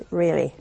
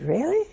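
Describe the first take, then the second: First: Low, falling REALLY as an answer; flat confirmation. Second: High, rising REALLY as a question; surprised question. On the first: Nun confirming to the wife what she did, matter-of-fact. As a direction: drop "Really" down to settle it. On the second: Wife hearing the nun's confession, surprised and questioning. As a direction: lift "Really" right up in disbelief. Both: Retold or imitated.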